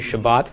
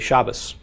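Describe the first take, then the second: First: The word ends with a T sound. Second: The word ends with an S sound.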